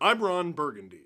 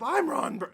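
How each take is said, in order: First: It is said in a deep voice. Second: It is said in a high voice.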